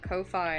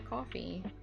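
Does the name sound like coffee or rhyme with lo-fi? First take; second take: lo-fi; coffee. First: It is said rhyming with lo-fi. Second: It is said like the word coffee. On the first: Few people say it this way. "Because it looks like lo-fi" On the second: Most people say it this way. "the majority of people call it"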